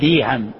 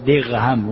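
First: The middle consonant is a y sound. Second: The middle consonant is a gh sound. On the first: "بعضهم يأتي بالياء فيقول ديهم" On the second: "بعضهم يأتي بالغين فيقول دغهم"

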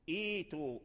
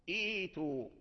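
The two takes are said the same way.

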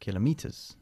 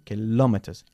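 First: The stress is on the first syllable. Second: The stress is on the second syllable. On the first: The speaker calls it wrong. "y no kilometers" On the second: The speaker calls it right. "enfatizando la segunda sílaba"

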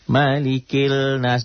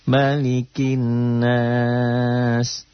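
First: An L sound is heard before 'nas'. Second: No L sound; a doubled N runs into 'nas'. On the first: The speaker calls it wrong. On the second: The speaker calls it right. "Alif lamnya jangan dibaca"

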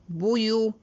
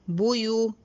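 Both takes have the same delivery.

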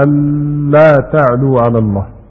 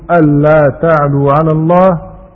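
First: The n sound is partly kept before the l. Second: The n sound fully merges into the following l. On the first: "الإدغام الناقص على المذهب الثاني" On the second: "الإدغام الكامل على الأصل المعهود"

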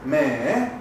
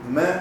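First: The pitch dips, then rises at the end. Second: The pitch stays level throughout. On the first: "como una colita como y sube al último" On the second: "que es derecho"

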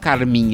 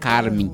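First: The stress is on the last syllable. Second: The stress is on the first syllable. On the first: This is how the word is normally said. "Ele não falava carmim" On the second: This is how the singer said it in the song. "ele falava carmim. ... Ele transformava uma oxítona numa paroxítona"

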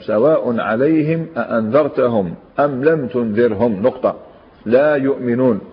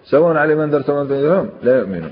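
First: There is a stop before the last words. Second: The verse runs on without a pause. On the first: The last words begin a new, separate sentence. The speaker calls it right. "لا هنا يحبس الكلام" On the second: The last words are joined to the clause before. The speaker calls it wrong. "كأن الناس تربط الكلام بما قبله"

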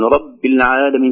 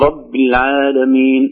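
First: The i vowel is weak, almost dropped. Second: The i vowel is pronounced fully and clearly. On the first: The speaker calls it wrong. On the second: The speaker calls it right.

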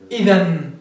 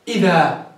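First: The word ends in an 'n' sound. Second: The word ends in a long 'a' sound. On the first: "ابن عصفور كيف يقف؟" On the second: "ابن هشام كيف يقف؟"

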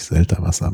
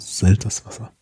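First: There is no s sound before 'wasser'. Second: An s sound comes before 'wasser'. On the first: The speaker calls it wrong. "nicht Selterwasser" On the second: The speaker calls it right. "aber Selterswasser"

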